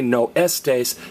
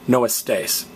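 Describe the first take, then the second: First: The stress is on the first syllable of estés. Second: The stress is on the last syllable of estés. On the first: The speaker calls it wrong. "don't stress the next to last vowel. Don't say" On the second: The speaker calls it right. "stress me"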